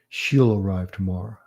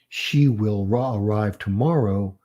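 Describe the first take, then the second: First: She and will merge into one short syllable. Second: The words she and will are fully separate. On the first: "It's almost like you're saying the word shall" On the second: "instead of"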